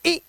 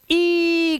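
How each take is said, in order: First: ई cut short as a quick "i"; demonstrating a brief ई; short vowel sound. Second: ई held long as a high, steady "ee"; demonstrating a drawn-out, high ई; long vowel sound. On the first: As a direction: say ई briefly, no stretch. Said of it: "और कब मुझे ई करना है". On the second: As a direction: stretch ई right out. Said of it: "what is long vowel sound". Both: Shown as a demonstration.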